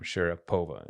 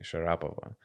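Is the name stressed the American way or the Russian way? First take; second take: American; Russian. First: The stress falls where American commentators put it. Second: The stress falls where Russian speakers put it. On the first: The speaker calls it wrong. "they always put the intonation in the wrong place" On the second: The speaker calls it right. "It's actually Sharapova"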